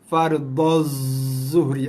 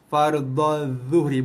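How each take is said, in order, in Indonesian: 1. Bunyi pertama pada zuhri adalah bunyi berdesis. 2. Bunyi pertama pada zuhri tidak berdesis. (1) "Kalau keluar je bunyi desir, maksudnya kita dah salah tempat dah" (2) "lidah kita naik atas, tak ada bunyi desir"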